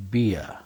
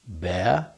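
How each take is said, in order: First: Beer said piə, ee gliding to uh; beer, bright ee sliding off; beer as in drink. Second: Bear, open eh sound ending in r; bear as in animal. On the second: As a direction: Bear said pɛɹ, open eh vowel. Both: Shown as a demonstration. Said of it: "Can you hear the difference?".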